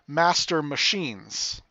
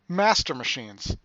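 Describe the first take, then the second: First: The stress falls on the usual syllables. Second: One syllable carries stress in an unusual place. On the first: The speaker calls it right. "There you go" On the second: The speaker calls it wrong. "I pressed the wrong syllable there"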